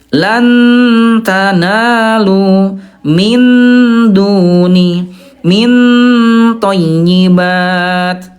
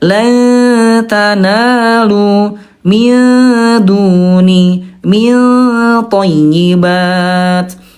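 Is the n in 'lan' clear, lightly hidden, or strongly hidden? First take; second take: clear; strongly hidden. First: The n in 'lan' is pronounced fully clear. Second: The n is strongly hidden into the following t. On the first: The speaker calls it wrong. "yang ke satu itu Bunda idhar ya" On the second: The speaker calls it right. "yang betul adalah yang ketiga, tingkat kesamarannya tinggi"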